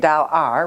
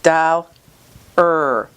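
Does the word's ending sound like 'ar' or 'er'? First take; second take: ar; er. First: The ending has an 'ah' vowel before r. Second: The ending is a single weak 'er' sound. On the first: The speaker calls it wrong. "we don't say dal r" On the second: The speaker calls it right. "It's dal er"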